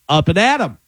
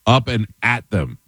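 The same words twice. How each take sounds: First: "up and at 'em" sounding like Adam; "up and at 'em" with them cut to 'em; contracted saying. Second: Slow "up and at them", every word apart; full form. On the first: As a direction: run "at 'em" into AD-um. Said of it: "what about". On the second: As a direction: sound the TH in "them". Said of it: "it's the short for them". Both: Shown as a demonstration.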